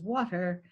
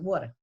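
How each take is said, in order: First: It is said in a standard American accent. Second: It is said in the local regional accent. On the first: "standard American English says water" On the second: "In this region, we say water"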